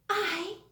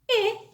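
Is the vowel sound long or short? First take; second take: long; short. First: The vowel is said as a long sound. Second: The vowel is said as a short sound. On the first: "Now let's look at the long sounds" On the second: "let's see the short vowel sounds"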